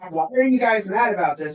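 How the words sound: It sounds concerned and genuinely curious. The speaker genuinely wants to know why people are upset. The speaker calls it right. "I'm concerned that a whole group of people are mad"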